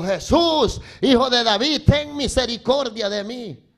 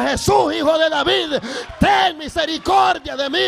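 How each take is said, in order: First: Retold shout of a plea; crying out. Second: High, loud imploring shout; shouting harder. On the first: Blind beggar calls to Jesus as he passes, crying out. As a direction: call out for mercy, moderately raised voice. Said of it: "empezó a gritar y le dijo". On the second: Retold or imitated. Blind man calls to Jesus despite the crowd, shouting harder. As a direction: shout the plea over the crowd. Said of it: "aquel hombre más gritaba".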